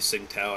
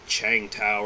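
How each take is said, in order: First: The name begins with an 's' sound. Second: The name begins with a 'ch' sound. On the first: This is the speaker's habitual pronunciation. "but it I say Sing Tao" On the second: This is supposedly the proper pronunciation. "I guess it's pronounced like Chang Tao"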